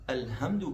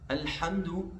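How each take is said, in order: First: The h is a light breathy sound. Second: The h is a tight sound from the throat. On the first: The speaker calls it wrong. "छोटी हा पढ़े" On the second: The speaker calls it right. "बड़ी हा है ये वस्त हल्क से यानी गले के दरमियानी हिस्से से अदा होता है"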